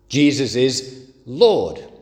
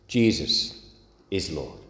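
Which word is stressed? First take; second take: Lord; Jesus. First: The stress is on the word Lord. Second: The stress is on the word Jesus.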